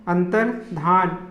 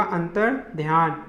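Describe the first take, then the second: First: अंतर्धान with "dhan", no y glide; wrong अंतर्धान. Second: अंतर्ध्यान with a y glide, "dhyan"; given as correct अंतर्ध्यान. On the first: Teacher showing the error, अंतर्धान ending "dhan". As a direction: end अंतर्धान on plain "dhan". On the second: Teacher giving her form, अंतर्ध्यान ending "dhyan". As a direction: add y after dh in अंतर्ध्यान. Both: Shown as a demonstration. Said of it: "शुद्ध रूप होगा".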